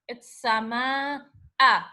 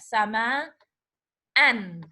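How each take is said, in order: First: The word ends on a plain a vowel. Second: The word ends with an added n sound. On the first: "If I make it like that" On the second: "If I make another fatha, it becomes, we have tanween al-fatah"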